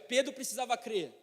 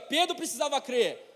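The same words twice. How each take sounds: First: It is said at normal volume. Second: It is said louder.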